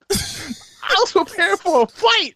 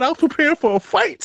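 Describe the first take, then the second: First: Higher and slow, laughing the words out. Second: Said in the usual way. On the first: Real, not acted. Telling his friend he expected a fight, laughing. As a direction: repeat the line while cracking up. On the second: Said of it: "repeats it laughing".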